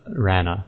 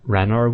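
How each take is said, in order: First: It has no r sounds after the vowels. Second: It has r sounds after the vowels.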